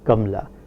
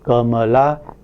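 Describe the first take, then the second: First: The middle vowel is dropped entirely. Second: The middle vowel is pronounced fully.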